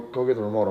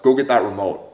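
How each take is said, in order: First: It sounds relaxed and nonchalant. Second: It sounds commanding and bossy. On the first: It is a casual, easygoing request. The speaker calls it right. "You see how it's nonchalant?" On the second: It is a harsh order. The speaker calls it wrong. "like a directive asshole"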